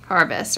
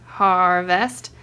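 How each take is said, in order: First: Said in the usual way. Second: HARVEST drawn out slowly in two parts; syllable by syllable. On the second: Shown as a demonstration. Pointing out the word in the book, slow syllables. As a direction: stretch HAR, then land VEST.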